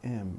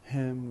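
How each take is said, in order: First: The word is reduced to a weak, unstressed form. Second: The word is said in its full, strong form. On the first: "we say am" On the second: "Instead of saying uh, him"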